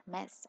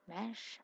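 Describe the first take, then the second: First: "Mess." said with a crisp final s, settled and falling; "Mess." ending in a clean hissed s, firm correction; corrected word mess. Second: "Mesh?" said with a short e and final sh, rising as if unsure; "Mesh?" ending in a soft sh, asked back uncertainly; wrong word mesh. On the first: Fixing her slip to listeners, firm "Mess.". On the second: Correcting herself mid-sentence about her accent, unsure "Mesh?". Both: Real, not acted. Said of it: "I meant mess".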